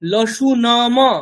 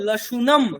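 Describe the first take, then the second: First: The final m is followed by a vowel. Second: The final m is said without a vowel. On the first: The speaker calls it wrong. "লসু নম এরকম বলবো না" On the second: The speaker calls it right. "বলবো লসুনম"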